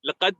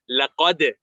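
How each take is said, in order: First: The final d ends flat with no bounce. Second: The final d ends with a short echoing bounce. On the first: The speaker calls it wrong. "We don't say laqad khalaq" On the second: The speaker calls it right. "We say laqad. ... there's qalqala on it"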